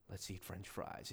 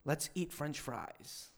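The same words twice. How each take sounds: First: Very low, hushed, weighty delivery; powerful simple words. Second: Said in the usual way. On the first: Retold or imitated. Imitating a pastor who makes simple words powerful, hushed. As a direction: drop it deep and soft for gravity. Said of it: "make those simple words powerful". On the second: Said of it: "I would say, like".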